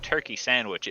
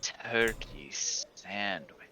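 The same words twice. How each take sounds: First: It is said in a plain, neutral tone. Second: It is said in a suggestive, seductive tone. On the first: It is just an ordinary food order. "if you just said turkey sandwich, it'd be, be fine" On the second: It sounds like a sexual innuendo. "that's how you construe anything as sexual if it's said that way"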